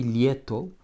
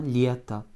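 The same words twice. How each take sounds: First: Lieto with a full final O; spelling pronunciation of lieto, O not reduced; as spelled. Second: Lieta with the final O weakened to A; lieta, unstressed ending said as a short a; correct reduced vowel. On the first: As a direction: say lieto as written, ending on a clear "o". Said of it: "ça s'écrit lieto". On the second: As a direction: stress the "ie" in lieta and end on a small "a". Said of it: "mais on prononce bien lieta". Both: Shown as a demonstration.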